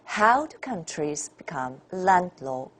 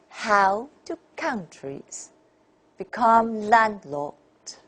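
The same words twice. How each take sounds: First: The stress contrast is natural and mild. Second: The stress contrast is strongly exaggerated.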